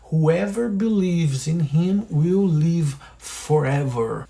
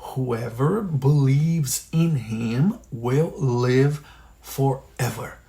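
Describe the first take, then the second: First: It is said at normal speed. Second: It is said slowly.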